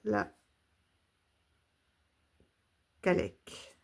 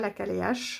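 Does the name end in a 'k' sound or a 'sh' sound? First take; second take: k; sh. First: The name ends with a hard 'k' sound. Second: The name ends with a soft 'sh' sound. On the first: The speaker calls it right. "c'est la Calec" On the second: The speaker calls it wrong. "c'est pas la Caléache"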